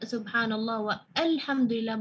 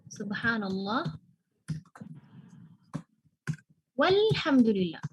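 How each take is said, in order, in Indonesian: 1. Ada bunyi a yang terpisah memulai alhamdulillah setelah wa. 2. Wa langsung nyambung ke lhamdulillah, tanpa jeda. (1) "enggak subhanallah wa alhamdulillah" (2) "Kita tidak baca, enggak wa alhamdulillah"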